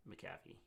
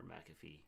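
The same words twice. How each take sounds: First: McAfee said muh-CAF-ee; second-syllable stress. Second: McAfee said MAC-uh-fee; first-syllable stress. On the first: Host trying one way of saying the team's name, McAfee as muh-CAF-ee. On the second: Host offering the other way of saying the name, McAfee as MAC-uh-fee. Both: Shown as a demonstration. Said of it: "Or however you wanna say it".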